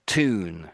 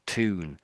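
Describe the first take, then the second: First: The word starts with a t sound. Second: The same.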